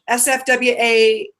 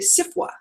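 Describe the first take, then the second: First: It is spelled out as four separate letters. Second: It is said as one word, sifwa.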